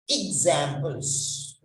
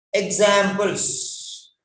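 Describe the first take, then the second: First: Examples said ig-ZAM-ples, stress on ZAM; correct pronunciation. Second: Examples said EK-samples, stress on the first syllable; wrong stress on examples. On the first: Teacher models the right way: Examples stressed on ZAM. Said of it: "not examples". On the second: Teacher shows the wrong way: Examples stressed on EK. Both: Shown as a demonstration.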